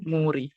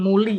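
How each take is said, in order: First: The middle consonant sounds like r. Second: The middle consonant sounds like l. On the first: The speaker calls it right. "tapi menjadi muri" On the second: The speaker calls it wrong. "bukan muli"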